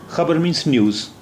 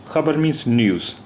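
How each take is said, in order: The two takes are said the same way.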